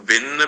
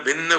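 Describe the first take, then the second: Both takes have the same delivery.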